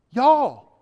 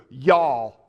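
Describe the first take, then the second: First: Y'all in a Southern accent, much higher and louder; a booming Southern Y'all to the room; emphatic Southern y'all. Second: Y'all drawled in a Southern accent, a touch louder; a relaxed Southern y'all. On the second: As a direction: give them a Southern y'all. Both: Shown as a demonstration. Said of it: "communicate that in the way Southerners can hear".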